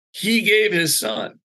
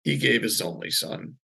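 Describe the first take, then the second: First: "He gave his son" high and drawn out; weighty, high, slow "He gave his son"; emphatic proclamation. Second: Said in the usual way. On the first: Retold or imitated. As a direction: slowly press "He gave his son", voice lifted. Line repeated with weight.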